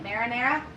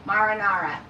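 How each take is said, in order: First: Trying out "Marinara" as mair-uh-NAIR-uh, asking; testing the word "Marinara" with an air vowel; marinara with a rising question. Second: "Marinara" as mar-uh-NAR-uh with broad ah vowels, falling; marinara said firmly. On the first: Asking viewers how to say it, trying "Marinara" with an air sound. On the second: Answering her own question on saying it, "Marinara" with ah vowels. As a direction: settle on "Marinara" with open ah sounds. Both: Shown as a demonstration. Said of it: "How do you say it?".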